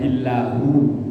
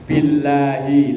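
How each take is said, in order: First: The word ends with an 'oo' vowel. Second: The word ends with an 'ee' vowel. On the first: The speaker calls it wrong. "Gak boleh dibaca billahu" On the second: The speaker calls it right. "belakangnya harus dibaca kasroh"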